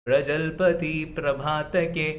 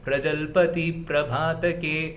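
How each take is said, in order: The two takes are said the same way.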